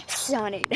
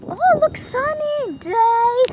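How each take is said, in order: First: Said in the usual way. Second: High, loud, slow sing-song irony; mock cheer. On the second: Joking to viewers about the rain, mock cheerful. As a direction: announce the sunshine as if it's a joke.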